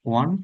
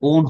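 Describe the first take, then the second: First: The word sounds like 'one'. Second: The word sounds like 'own'. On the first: The speaker calls it right. "উচ্চারণ হবে এটা ওয়ান" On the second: The speaker calls it wrong. "ওন হবে না"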